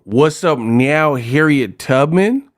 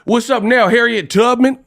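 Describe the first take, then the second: First: Slow, lightly mocking gangster line; mock Compton gangster. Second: High, challenging gangster call; mock Compton gangster. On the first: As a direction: draw the words out in disbelief. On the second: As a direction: parody a Compton tough guy picking a fight. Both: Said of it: "there'd be some Compton gangsters".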